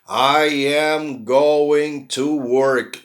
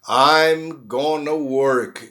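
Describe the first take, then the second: First: Going and to are said as separate full words. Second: Going and to are merged into one word, gonna.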